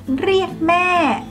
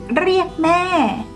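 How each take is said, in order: No difference in how they are said.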